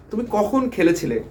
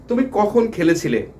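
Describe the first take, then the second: No difference in how they are said.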